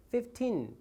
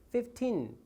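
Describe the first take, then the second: First: The second syllable gets little stress. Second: The same.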